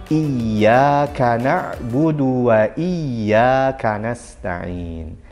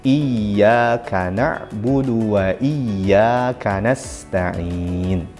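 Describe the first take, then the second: Both takes have the same delivery.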